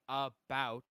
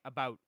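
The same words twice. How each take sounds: First: The vowel is exaggerated to sound like 'a boot'. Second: The vowel is only slightly Canadian-sounding. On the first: This is the mocking version others use. The speaker calls it wrong. "I don't say about" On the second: This is how it is really said. The speaker calls it right. "I say about"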